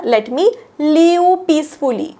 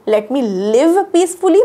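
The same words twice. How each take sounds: First: "live" drawn out as "lee-oo"; common mispronunciation. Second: "live" with a short i and a clear v; correct pronunciation. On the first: Teacher shows learners' common mistake, "live" mispronounced as "leeu". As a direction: stretch "live" into a long-vowelled "leeu", losing the crisp v. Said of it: "बऱ्याच जण काय करता तुम्ही उच्चार". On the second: Teacher models the right way to ask for peace, short-i "live". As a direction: keep the vowel in "live" short, not like leave. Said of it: "different उच्चार होतात". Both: Shown as a demonstration.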